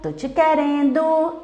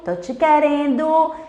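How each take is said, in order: Both takes have the same delivery.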